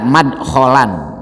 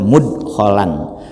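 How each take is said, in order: First: The first vowel is an open 'a' sound. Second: The first vowel is a rounded 'u' sound. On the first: "atau dengan baca madkholan" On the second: "dengan membaca domah huruf mimnya"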